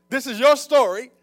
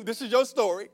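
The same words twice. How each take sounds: First: Raised, loud preaching call; emphatic repeat. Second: Said in the usual way. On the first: Real, not acted. Preacher telling the church it is theirs, emphatically. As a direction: drive "your story" home loudly.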